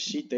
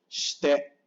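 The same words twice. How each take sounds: First: The i after sh is fully voiced. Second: The i after sh is nearly silent. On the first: The speaker calls it wrong. "no es shite" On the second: The speaker calls it right. "La I casi no suena"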